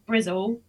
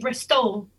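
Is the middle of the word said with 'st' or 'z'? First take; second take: z; st. First: The middle has a buzzing 'z' sound. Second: The middle has a clear 'st' sound. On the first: "rather than Brizzle" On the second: "I just say Bristol"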